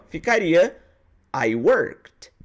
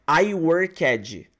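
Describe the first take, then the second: First: The -ed ending is a subtle final sound. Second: The -ed ending is said as an extra syllable. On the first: The speaker calls it right. "pronunciar a letra D no final de forma bem sutil" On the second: The speaker calls it wrong. "ela fala assim, ó"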